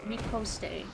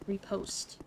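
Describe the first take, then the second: First: The word ends with an extra 'ay' syllable. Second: The word ends on the 't' sound. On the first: The speaker calls it wrong. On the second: The speaker calls it right.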